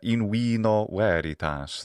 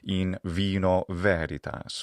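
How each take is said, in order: First: It uses a classical Latin pronunciation. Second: It uses an ecclesiastical Latin pronunciation. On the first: "that'd be a little classical Latin way to say" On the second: "That was the more ecclesiastical pronunciation"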